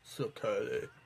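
It is said in a put-on goth voice.

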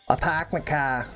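The r in park is dropped, Boston-style. "I can't even do the Boston accent right anymore"

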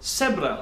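The first sound is an s sound.

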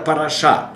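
The stress is on the last syllable. "в сефардском произношении ивритском это параша"

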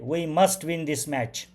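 The line is spoken in a confident way. The speaker is sure of winning. "Confident स्वरूपामध्ये"

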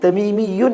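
A 'y' sound comes before the ending. This is the common pronunciation. "അവർക്ക് തമീമിയുൻ എന്ന് പറയില്ല"

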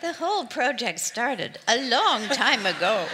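It is said in a small put-on voice.

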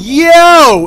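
It sounds like a friendly call.

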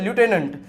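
It is said in an American accent, 'loo-tenant'. "American English પ્રમાણે લ્યુટેનન્ટ બરોબર છે"

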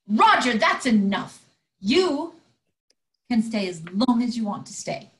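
It is said in a much angrier tone.

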